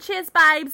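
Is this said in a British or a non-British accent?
British. It is said in an imitated British accent. "Let me try for you guys"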